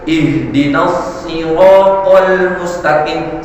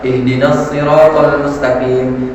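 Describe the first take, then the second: First: It is recited with very precise, native-like articulation. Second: It is recited with ordinary, plain articulation. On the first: This is how an expert in recitation recites. "lebih fasih lagi" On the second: "tajwid yang biasa-biasa saja. Kayak kita misalnya orang Indonesia"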